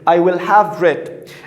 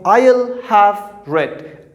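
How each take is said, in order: First: The word will is said in full. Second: The word will is contracted onto I.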